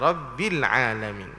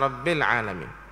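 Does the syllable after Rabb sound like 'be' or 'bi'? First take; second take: bi; be. First: The vowel after Rabb is a clear i. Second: The vowel after Rabb leans toward e. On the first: The speaker calls it right. "Rabbil alamin, bukan" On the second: The speaker calls it wrong. "jangan telo, yakni imalah, seperti bel"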